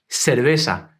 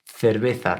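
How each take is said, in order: First: The c and z are pronounced as s sounds. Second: The c and z are pronounced as th sounds. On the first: This is how it is said in Latin America and southern Spain. "the letters C and Z are pronounced like a S" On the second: This is how it is said in the rest of Spain. "that th sound"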